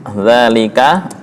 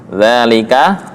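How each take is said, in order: The two takes are said the same way.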